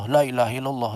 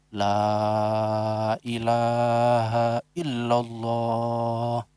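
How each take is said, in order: First: The phrase is said quickly. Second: The phrase is said slowly. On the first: "Nah itu bukan dikrun" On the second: "pertama memang pelan"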